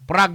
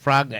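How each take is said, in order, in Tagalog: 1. Nagsisimula ang salita sa tunog na P. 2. Nagsisimula ang salita sa tunog na F. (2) "F man to"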